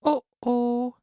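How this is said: It is said in a medium voice.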